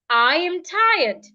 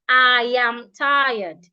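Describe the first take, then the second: First: The pitch moves up and down. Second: The pitch stays flat on one level. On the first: The speaker calls it right. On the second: The speaker calls it wrong.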